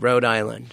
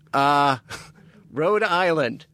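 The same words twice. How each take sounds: First: It is said flatly, without much inflection. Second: It is said with lively, expressive inflection. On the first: The speaker calls it wrong. "maybe the way I said it without inflection, it didn't register" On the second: The speaker calls it right. "So I'll redo it. ... Okay, now it's better"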